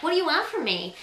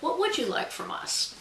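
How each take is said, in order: First: Higher-pitched, whiny complaint. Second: Higher, sincerely asked, without any whine; sincere question. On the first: Author showing viewers the way it is not meant, whiny. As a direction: whine it like a put-upon grumble. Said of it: "in that whiny way". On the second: Author asking readers what they want from authors, sincere. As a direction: ask it as a genuine, open question. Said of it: "in the true sense of". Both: Shown as a demonstration.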